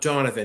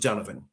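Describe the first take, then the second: First: The name is said in a non-Irish way. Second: The name is said in the Irish way. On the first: The speaker calls it wrong. "it's not it's not it's not um Donovan" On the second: The speaker calls it right. "we pronounce it Donovan ... it's the Irish like version of it"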